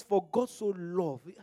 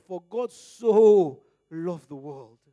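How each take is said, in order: First: "For God so loved" read slowly, a little louder, weight on "God"; slow emphatic quote. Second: "so" hit hard, drawn out and very loud; shouting the verse with "so" held long; stress on so. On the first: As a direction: read the verse slow and firm, leaning on "God". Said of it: "The word "so". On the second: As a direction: pour all the weight and depth into "so", very slowly. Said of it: "is giving the importance, the, the heaviness, the depth". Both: Shown as a demonstration.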